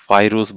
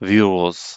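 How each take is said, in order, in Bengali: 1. প্রথম স্বরধ্বনিটি ইংরেজি 'eye'-এর মতো শোনায়। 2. প্রথম স্বরধ্বনিটি ইংরেজি 'ee'-এর মতো শোনায়। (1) "ভি কে এখানে তাহলে ভাইরুস বলবেন না" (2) "আবার এটাকে বলা হয় ভিরুস"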